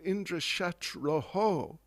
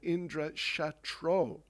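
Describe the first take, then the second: First: The last word ends with an echoing 'oho'. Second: The last word ends with a plain 'o'. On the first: This person can kill Indra. The speaker calls it right. "which would mean he would be the enemy of Indra" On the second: This person can be killed by Indra. The speaker calls it wrong. "he mispronounced and just said Indra Shatro, without the visarga"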